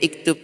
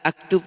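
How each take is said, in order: First: The word begins with the vowel i. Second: The word begins with the vowel a. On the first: "Tidak boleh juga iktub" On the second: "aktub tidak boleh"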